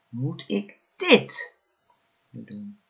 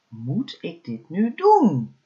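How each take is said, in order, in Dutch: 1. De klemtoon valt op het woord dit. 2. De klemtoon valt op het woord doen. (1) "elke keer de klemtoon op een ander woord gelegd" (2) "elke keer de klemtoon op een ander woord gelegd"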